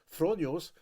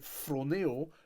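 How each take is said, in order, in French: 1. Le mot se termine par un son 'os'. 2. Le mot se termine par un son 'eo'. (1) "ce que plusieurs personnes peut-être le prononcent" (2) "mais c'est phronéo"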